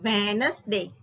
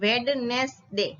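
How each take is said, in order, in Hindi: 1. D की ध्वनि मौन होती है। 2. D की ध्वनि उच्चारित होती है। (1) "D જે છે એ silent રહેશે" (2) "not Wednesday"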